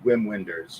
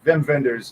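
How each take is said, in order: First: The name is said plainly, with English W sounds. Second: The name is said in an affected foreign accent. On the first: "that's a W, W and W, Wim Wenders, you might say" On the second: "how uh, you would say it with the pretentious accent"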